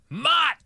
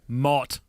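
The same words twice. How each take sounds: First: The name is yelled loudly, like O'Neill. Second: The name is said calmly, at normal volume.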